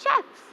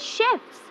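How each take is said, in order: First: The word begins with a ch sound. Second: The word begins with a sh sound. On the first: The speaker calls it wrong. "There's no such word as chefs" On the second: The speaker calls it right. "As in shirt, in shirt, we say chefs"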